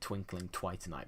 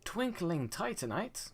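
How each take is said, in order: First: The second word starts with a TW sound. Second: The second word starts with a plain T. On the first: The speaker calls it wrong. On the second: The speaker calls it right.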